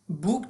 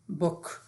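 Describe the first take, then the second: First: The vowel sound is drawn out long. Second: The vowel sound is short. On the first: The speaker calls it wrong. "بوک تلفظ نمیشه دوستا" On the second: The speaker calls it right. "مثل ما تلفظ میکنیم بوک"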